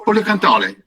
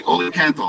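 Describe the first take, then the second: First: Oleocanthale with a sung Italian ending, oh-leh-oh-can-TAH-leh, pitched higher; imitating an Italian farmer saying "oleocanthale" with a final -e, raised and bright; Italian pronunciation. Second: Oleocanthal said the English way, oh-lee-oh-CAN-thal; English pronunciation. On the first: Tuscan olive farmer tells the speaker the Italian word, pitched up. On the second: Shown as a demonstration. Speaker pitching a new word to an olive farmer, English pronunciation. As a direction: say "Oleocanthal" in plain American English. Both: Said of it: "Oleocanthale is the Italian".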